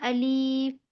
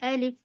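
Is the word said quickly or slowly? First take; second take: slowly; quickly. First: The word is drawn out slowly. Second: The word is said quickly and short. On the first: The speaker calls it wrong. "Alif इस तरह नहीं पढ़ेंगे" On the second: The speaker calls it right. "अलिफ जल्दी पढ़ेंगे"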